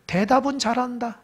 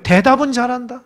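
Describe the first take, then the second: First: 대답은 잘한다 dropped to a soft wry aside; dry quiet aside. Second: Said in the usual way. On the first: Real, not acted. Pastor's ironic aside on the disciples' answer, soft and wry. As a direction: mutter 대답은 잘한다 under the breath, ironic.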